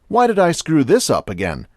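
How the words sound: It is said in an interested, curious tone. The speaker genuinely wants to understand the problem. The speaker calls it right. "changing the emphasis and tone to that of interest and self-knowledge"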